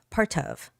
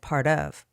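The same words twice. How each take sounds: First: The T is pronounced crisply and clearly. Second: The T is softened into a quick tap.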